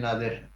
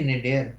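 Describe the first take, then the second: First: The first syllable sounds like 'nah'. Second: The first syllable sounds like 'nay'. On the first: The speaker calls it wrong. "इसको कई लोग नादिर पढ़ते हैं" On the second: The speaker calls it right. "नादिर नहीं, ये नेडियर"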